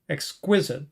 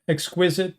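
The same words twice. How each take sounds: First: The second syllable is stressed. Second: The second syllable is not stressed.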